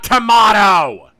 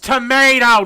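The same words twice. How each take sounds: First: It is said in a British accent. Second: It is said in an American accent. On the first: The speaker calls it wrong. "not tomato! We're not British!" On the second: The speaker calls it right. "It's tomato"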